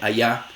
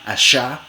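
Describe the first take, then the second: First: The consonant is a soft, vowel-like approximant. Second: The consonant is a voiceless 'sh' fricative. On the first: "suena casi como una vocal" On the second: "fricativa postalveolar sorda, sh, como en show"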